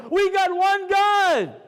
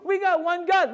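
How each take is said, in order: First: High, drawn-out shout to the whole room; ringing declaration of faith, GOD held long; loud proclamation. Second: Said in the usual way. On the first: Shown as a demonstration. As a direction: proclaim it slowly at full voice. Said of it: "Let me do a little Kiddush Hashem in this room". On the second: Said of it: "Let me do a little Kiddush Hashem".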